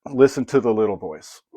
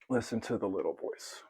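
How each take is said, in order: First: Said in the usual way. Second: Softly repeated. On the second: Shown as a demonstration. To viewers, echoing the soft inner voice, quiet. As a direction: echo it much softer, almost to yourself. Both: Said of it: "that soft little voice that you hear".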